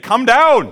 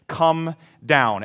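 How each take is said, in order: First: Loud shout. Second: Said in the usual way. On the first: Shown as a demonstration. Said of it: "say it like you mean it". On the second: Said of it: "it's simply this".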